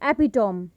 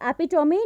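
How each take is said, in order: First: The word ends with an 'm' sound. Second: The word ends with an 'ee' sound. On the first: The speaker calls it wrong. "Not एपिटोम" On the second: The speaker calls it right. "Correct pronunciation of this word is एपिटोमी"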